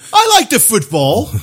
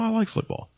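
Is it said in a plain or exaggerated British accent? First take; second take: exaggerated British; plain. First: It is said in a stereotypical British accent. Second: It is said in a plain, unexaggerated voice.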